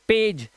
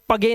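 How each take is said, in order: First: The g is a soft j sound. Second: The g is a hard g sound. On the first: The speaker calls it right. "जा पढ़ेंगे" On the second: The speaker calls it wrong. "इसे पगे नहीं पढ़ेंगे, गा नहीं पढ़ेंगे"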